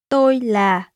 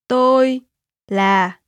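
First: It is said at normal speed. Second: It is said slowly.

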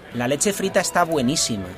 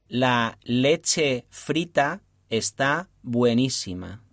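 First: It is said at normal speed. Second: It is said slowly.

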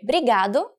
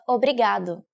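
First: The first syllable is dropped from the word. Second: The first syllable is kept in the word. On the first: "we sometimes cut words when we are talking" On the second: "instead of"

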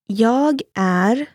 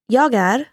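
First: It is said slowly. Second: It is said fast.

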